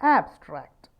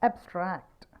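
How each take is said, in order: First: The stress is on the first syllable. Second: The stress is on the second syllable. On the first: The word is used as a noun. "ആദ്യത്തെ സിലബിളായിട്ടുള്ള ആബ്, അവിടെയാണ് stress വീഴുന്നതെന്നുണ്ടെങ്കിൽ അത് ഒരു noun ആവും" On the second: The word is used as a verb. "രണ്ടാമത്തെ സിലബിളിൽ വീഴുകയാണെന്നുണ്ടെങ്കിലോ"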